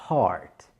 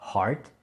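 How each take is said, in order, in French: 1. La voyelle est longue et étirée. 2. La voyelle est courte et sèche. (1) "je dis bien heart" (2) "Je ne dis pas heart"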